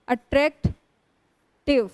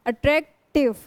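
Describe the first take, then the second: First: attractive slowly, with a long stop before टिव; split into parts. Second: attractive with a brief stop before टिव; a short break inside attractive, after attract; lightly split. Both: Shown as a demonstration. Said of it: "तीन syllable वाले होते हैं".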